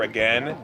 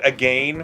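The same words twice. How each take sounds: First: It is said with a plain American pronunciation. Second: It is said with a British-like pronunciation. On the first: It is the usual way the speakers say it. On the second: It imitates how the Canadian teacher said it.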